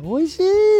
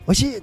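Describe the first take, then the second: First: The word is said in a high voice. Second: The word is said quickly. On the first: "声を高くして" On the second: "ちょっとなんか早く言って"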